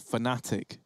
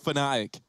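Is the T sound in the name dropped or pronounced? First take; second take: pronounced; dropped. First: The T sound in the word is pronounced. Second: The T sound in the word is dropped. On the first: The speaker calls it right. "Or Fnatic, rather" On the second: The speaker calls it wrong. "Sometimes I don't pronounce the T's"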